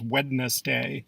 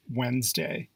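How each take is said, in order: First: Wednesday mispronounced WED-ness-day; three syllables, Wednesday as WED-ness-day; sounded D. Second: Wednesday said WENZ-day; silent first D. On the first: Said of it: "began pronouncing it". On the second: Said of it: "Proper pronunciation is Wednesday". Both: Shown as a demonstration.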